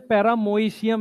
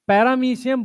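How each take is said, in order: First: The middle syllable has an 'oi' vowel. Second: The middle syllable has an 'ee' vowel. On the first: This is how it is read from the spelling. "पढ़ते पैरामोइशियम है इसे" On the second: This is how people usually say it. "पैरामीशियम बोलते हैं"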